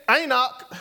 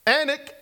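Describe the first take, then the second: First: "Anak" as EYE-nok, full second syllable; alternative pronunciation. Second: "Anak" as ANN-ik, stress first; trying a pronunciation. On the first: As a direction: say "Anak" with a gliding first vowel and open ending. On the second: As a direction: say "Anak" with short A and weak ending. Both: Shown as a demonstration. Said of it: "how do you pronounce this?".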